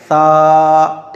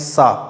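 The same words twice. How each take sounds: First: The consonant is a soft th with tongue on teeth. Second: The consonant is a hissing, whistling s sound. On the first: The speaker calls it right. "जबान आगे के दांतों पे लगानी है" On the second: The speaker calls it wrong. "सीटी की आवाज निकालते हैं सा, ये गलत है"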